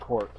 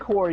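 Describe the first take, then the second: First: The final S sound is pronounced. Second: The final S sound is silent. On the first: The speaker calls it wrong. "they call it the Green Lantern Corps" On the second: The speaker calls it right. "The S is silent"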